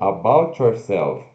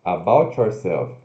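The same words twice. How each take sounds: First: The T and Y blend into one sound. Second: The same.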